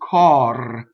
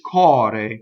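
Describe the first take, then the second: First: The R is a long trill. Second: The R is a single quick flap. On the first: "When I got rid of the E, I roll the R" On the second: "when I have the E, I flip the R"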